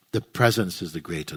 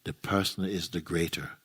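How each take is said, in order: First: Quick correction leaning hard on "presence"; corrective stress. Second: Said in the usual way. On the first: Real, not acted. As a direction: put the contrast firmly on "presence". Corrects the slip just made.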